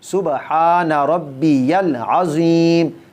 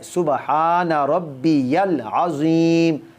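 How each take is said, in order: First: The middle word is said fully as 'rabbiyal'. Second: The middle word is said fully as 'rabbiyal'.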